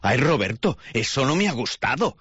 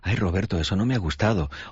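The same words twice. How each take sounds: First: The sentence is said in an aggressive, hostile tone. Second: The sentence is said in a calm, gentle tone. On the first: The complaint adds unnecessary hostility and raises confrontation. The speaker calls it wrong. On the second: The complaint is voiced without hostility. The speaker calls it right.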